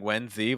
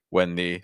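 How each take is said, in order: First: The th sound in 'the' is fully clear. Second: The th sound is reduced almost to n. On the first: "with a very clear th sound" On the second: "reducing the th almost to an n sound"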